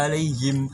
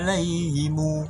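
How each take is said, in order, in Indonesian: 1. Kata itu berakhir 'him' dengan vokal i. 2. Kata itu berakhir 'himu' dengan u tambahan. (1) "yang biasanya kita baca" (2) "Him berubah jadi himu"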